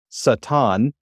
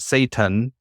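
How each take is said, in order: First: Satan said the Hebrew way, sah-TAHN; Hebrew pronunciation. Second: Satan said the English way, SAY-tun; English pronunciation. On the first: Teacher explains the article, Satan in Hebrew as sah-TAHN. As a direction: say Satan as sah-TAHN, drawn out, ending stressed. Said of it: "it's not Satan". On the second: Teacher corrects a usual reading, Satan in English as SAY-tun. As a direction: say Satan as SAY-tun, first syllable stressed. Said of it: "and it's not Satan". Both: Shown as a demonstration.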